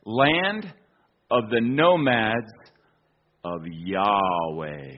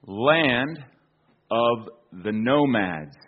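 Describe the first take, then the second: First: Slow reverent reading of "Land of the nomads of Yahweh"; solemn reading. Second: Said in the usual way. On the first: Shown as a demonstration. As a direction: Land rising, then Yahweh drawn out slow and low. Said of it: "inscription says". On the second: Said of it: "translated into English".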